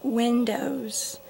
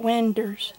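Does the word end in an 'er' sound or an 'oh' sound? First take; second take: oh; er. First: The word ends in an 'oh' sound. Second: The word ends in an 'er' sound. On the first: The speaker calls it right. "there's no R in windows" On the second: The speaker calls it wrong. "So it's just a southern accent kind of thing"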